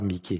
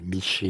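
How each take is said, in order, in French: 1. La consonne du milieu est un son k. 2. La consonne du milieu est un son sh. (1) "Pas Mickey"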